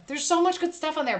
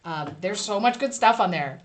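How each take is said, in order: First: Much pitched high and leaned on; emphatic repeat, much raised; stress on much. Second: Said in the usual way. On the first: Shown as a demonstration. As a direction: sell it hard on much. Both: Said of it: "repeats with emphasis".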